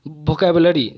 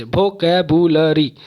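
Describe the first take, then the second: First: Said in the usual way. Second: vocabulary split into five separate beats; syllable by syllable. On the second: Shown as a demonstration. Teacher showing five beats to students, vocabulary broken up. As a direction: break vocabulary apart syllable by syllable. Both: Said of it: "तोड़ तोड़ के आवाज़".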